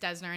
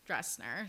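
First: The name has no r sound after the D. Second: The name has an r sound after the D. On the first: The speaker calls it right. "I'm pretty sure it's Desner" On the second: The speaker calls it wrong. "every single time you and I had said Dresner"

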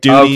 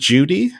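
First: It is said in his usual non-Australian accent. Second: It starts with a J sound, Australian-style.

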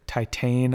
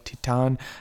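First: The word is pronounced the English way. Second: The word is pronounced the French way. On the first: "we called it Titane up until I just looked up the French pronunciation" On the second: "the French pronunciation, which is more like Titane"

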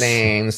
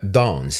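First: It is said with an American accent. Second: It is said with a British accent.

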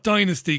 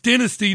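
First: It is pronounced the American way. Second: It is pronounced the British way. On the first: The speaker calls it wrong. "not dynasty" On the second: The speaker calls it right. "It's dynasty"

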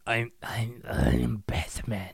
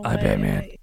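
First: It is said in a gruff, grunting put-on voice. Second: It is said in a normal speaking voice. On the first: The speaker calls it right. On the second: The speaker calls it wrong.

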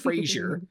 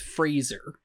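First: It sounds like the TV character name Frasier. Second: It is said with a plain s sound. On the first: The speaker calls it wrong. "He is not a TV show character. His name is not Fraser" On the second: The speaker calls it right. "It is Fraser. It's an S"

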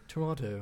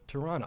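First: The second T is clearly pronounced. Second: The second T is dropped. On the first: The speaker calls it wrong. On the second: The speaker calls it right.

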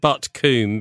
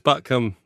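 First: The second syllable has a long oo vowel. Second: The second syllable has a short uh vowel. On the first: A polite outsider's way of saying the name. The speaker calls it wrong. "I'd always said Butt Coombe, being, you know, nicely brought up" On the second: The local West Country way of saying the name. The speaker calls it right. "apparently Coombe is produced as cum. So it's Butt Cum"

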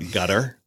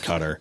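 First: It begins with a G sound, like gutter. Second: It begins with a K sound, like cutter. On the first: This is how locals say it. "they pronounce it over there, gutter. Which sounds like a gutter on your house" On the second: This is how the speaker personally says it. "I call it cutter"

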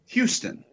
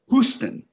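First: It begins with a 'hyoo' sound. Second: It begins with an 'oo' sound. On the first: "With what the linguists call a liquid U" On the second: "And they say Houston"

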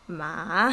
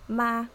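First: The pitch falls and then rises again. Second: The pitch stays level throughout the syllable. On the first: "third tone is down and then up again" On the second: "the first tone is ma, like flat"

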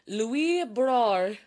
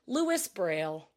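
First: The name is said with a French accent. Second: The name is said with an American accent.

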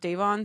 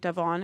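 First: The first syllable sounds like 'day'. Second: The first syllable does not sound like 'day'. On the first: The speaker calls it right. "instead of Davon ... We'll keep it with Day" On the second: The speaker calls it wrong. "I was mispronouncing Davon's name. I was saying Davon"

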